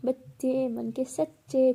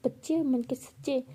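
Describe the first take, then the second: First: Slowly drawn out like a rhyme; slow sing-song saying. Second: Slow, questioning mockery of her words; mocking echo. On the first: Acted. Bhavna defending her childishness with a sing-song saying. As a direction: recite it like a cheeky proverb. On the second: Pihu mocking Bhavna's saying back to her.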